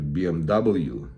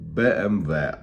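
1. Літери називають американською англійською. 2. Літери називають українською.

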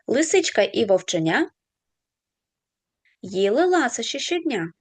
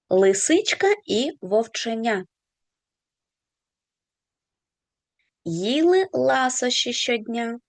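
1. Цей рядок читається швидшим темпом. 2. Цей рядок читається повільнішим темпом.

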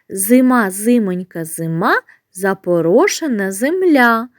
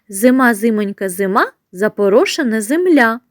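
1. Вимовляється повільним, звичайним темпом. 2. Вимовляється трохи швидше.

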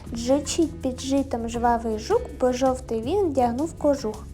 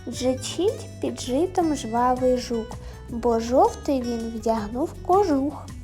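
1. Її читають помітно швидше. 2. Її читають повільно, рівним темпом.

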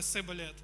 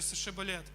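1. Слово починається зі звуку 's'. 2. Слово починається зі звуку 'sh'. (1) "в них була інша вимова, і вони не могли так сказати, вони говорили сиболет" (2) "скажи шиболет"

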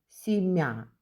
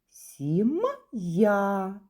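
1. «М» м'який, без звука «й». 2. «М» твердий, а після нього звук «й». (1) "Ми ж не читаємо" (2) "ми читаємо «сім'я». «М» твердий"

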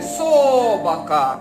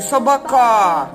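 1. Наголос на першому складі. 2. Наголос на третьому складі. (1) "На перший, слухайте" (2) "На третій"

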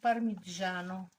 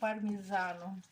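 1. Середній приголосний має звук 'j'. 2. Середній приголосний має звук 'z'. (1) "Італійці говорять парміджану" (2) "Українці говорять пармізану"

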